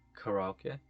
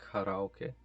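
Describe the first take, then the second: First: The word is pronounced in the Japanese way. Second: The same.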